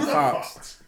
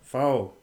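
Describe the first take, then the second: First: The word ends with a ks sound. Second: The word ends in a plain vowel. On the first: The speaker calls it wrong. "Not Fox" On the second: The speaker calls it right.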